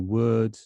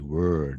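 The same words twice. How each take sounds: First: The vowel is plain, with no r sound. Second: The vowel is followed by an r sound. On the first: "a standard pronunciation in the U K" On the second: "If it's going to be America, ... There's a funny er bit there"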